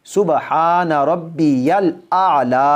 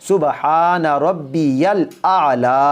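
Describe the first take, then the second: First: The middle word is said fully as 'rabbiyal'. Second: The middle word is said fully as 'rabbiyal'.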